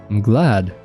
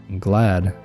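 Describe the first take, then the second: No difference in how they are said.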